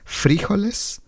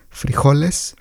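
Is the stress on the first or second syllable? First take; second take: first; second. First: Colombian: the stress is on the first syllable. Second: Mexican: the stress is on the second syllable.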